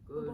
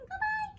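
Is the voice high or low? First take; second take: low; high. First: It is said in a low voice. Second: It is said in a high voice.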